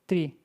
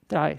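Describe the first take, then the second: First: The word is said like 'tree'. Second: The word is said like 'try'. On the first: The speaker calls it wrong. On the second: The speaker calls it right.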